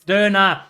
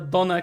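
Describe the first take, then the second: First: The first vowel is a rounded German ö. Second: The first vowel is a plain English o. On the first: The speaker calls it right. "it's Döner. It's not the same" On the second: The speaker calls it wrong. "English people always just pronounce as R, O, and U"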